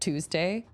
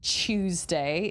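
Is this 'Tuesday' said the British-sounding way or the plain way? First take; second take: plain; British-sounding. First: It is said with the plain, non-British pronunciation. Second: It is said the way some British accents sound. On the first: "instead of" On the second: "some British accents sound like they're saying"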